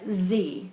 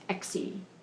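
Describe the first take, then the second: First: The name begins with a z sound. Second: The name does not begin with a z sound. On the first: The speaker calls it wrong. "I would pronounce that Z" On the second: The speaker calls it right. "but I think it's Exie Sands"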